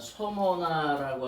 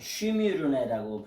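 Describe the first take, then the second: First: The name is said as so-mo-na. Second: The name is said as shwi-mi-reu-ne. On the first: "그 소모나라고 하는 발음은 아, 우리나라 발음이고요" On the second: "헬라어로 발음하면"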